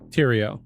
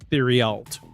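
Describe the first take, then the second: First: The name is said in a French way. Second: The name is read letter by letter, as spelled. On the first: The speaker calls it right. "but it's pronounced Theriault" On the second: The speaker calls it wrong. "It looks like it's spelled Theriault"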